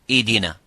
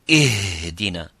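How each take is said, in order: First: The h sound is dropped entirely. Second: The h is pushed out with heavy force. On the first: "if it's weak and weaker and weaker, you make it weaker" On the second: "if we try to give it more strength"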